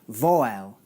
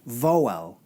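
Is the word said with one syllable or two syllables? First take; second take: two syllables; two syllables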